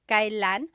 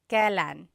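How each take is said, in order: First: The word is said in its careful, formal form. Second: The word is said in its everyday, casual form. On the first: This is the more formal way of saying it. "it's pronounced kailan" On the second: This is the way it is commonly heard in everyday speech. "you will often hear it pronounced kailan"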